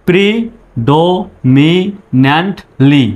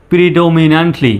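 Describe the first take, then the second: First: Drawn out syllable by syllable; slow teacher demo; slow broken up. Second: Said in the usual way. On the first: Shown as a demonstration. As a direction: break it apart slowly first. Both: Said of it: "একসঙ্গে বলুন এইভাবে".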